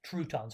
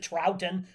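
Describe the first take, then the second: First: The first syllable rhymes with 'crouton'. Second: The first syllable sounds like 'trout'. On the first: "Looks like crouton to me, so I call it crouton's rule" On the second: "Or is it Troughton? I see trout"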